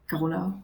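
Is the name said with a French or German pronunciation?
French. The name is pronounced in a French way. "the French pronunciation, which is more like Carola"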